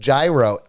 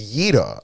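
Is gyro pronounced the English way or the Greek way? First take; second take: English; Greek. First: The word is pronounced the American English way. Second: The word is pronounced the Greek way. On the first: "In English, it's pronounced gyro" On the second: "the Greek version is gyro"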